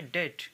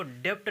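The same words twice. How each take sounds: First: डेट with no B sound; silent B. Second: डेब्ट with a sounded B; B pronounced. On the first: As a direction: say डेट, vowel straight into T. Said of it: "इसको कहेंगे डेट". (डेट, बिना ब की आवाज़ के) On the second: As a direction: say डेब्ट, voicing B before T. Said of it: "डेब्ट नहीं कहेंगे". (डेब्ट में ब का उच्चारण करके) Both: Shown as a demonstration.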